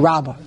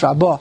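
First: The stress is on the first syllable. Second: The stress is on the last syllable. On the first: The speaker calls it wrong. "It's not Shmei Rabbah" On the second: The speaker calls it right. "it's Rabbah. It's always the emphasis, ... on the end, the last syllable"

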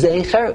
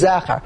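First: The first vowel sounds like 'ay'. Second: The first vowel sounds like 'eh'. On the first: "Chomesh Nekudos, that's Zecher" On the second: "Is it Shisha Nekudos, it is Zecher"

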